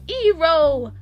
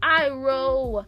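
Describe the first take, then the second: First: The name begins with an 'ee' sound. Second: The name begins with an 'eye' sound. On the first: This is how the movie says it. The speaker calls it wrong. "we're calling him Ero. E Ero" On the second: This is how the show says it. The speaker calls it right. "Like I, it's Iroh"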